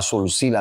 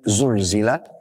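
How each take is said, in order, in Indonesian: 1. Kata itu diucapkan dengan bunyi 's' yang mendesis. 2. Kata itu diucapkan dengan bunyi 'z' yang berdengung. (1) "membaca semuanya dengan sin" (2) "mana zai"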